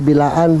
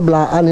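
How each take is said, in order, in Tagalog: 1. May patinig na naghihiwalay sa b at l. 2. Dumidiretso ang b sa l. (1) "hindi Bilaan" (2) "Blaan palang pronounce"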